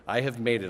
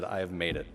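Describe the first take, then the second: First: Said in the usual way. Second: Softly, as if to himself; a quieter, understated retold thought; understated self-talk. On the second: Retold triumph, first take.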